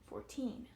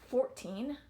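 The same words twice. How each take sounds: First: The stress is on the second syllable. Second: The stress is on the first syllable. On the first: The speaker calls it right. "second syllable gets that stress. I say fourteen" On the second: The speaker calls it wrong. "I don't say fourteen"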